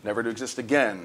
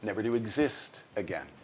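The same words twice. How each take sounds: First: The stress falls on the word again. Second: The stress falls on the word exist. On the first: The speaker calls it wrong. "No, don't do that" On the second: The speaker calls it right. "I can't stress again"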